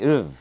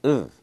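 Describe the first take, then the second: First: The word is reduced to a weak uv. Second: The word is reduced to a weak uv.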